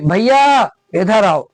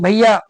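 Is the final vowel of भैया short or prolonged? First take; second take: prolonged; short. First: The final vowel is drawn out, as if calling. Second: The final vowel is said short and plain.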